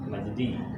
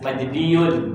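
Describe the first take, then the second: First: The word ends in a plain 'i' sound. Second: The word ends with a full 'iyun' ending.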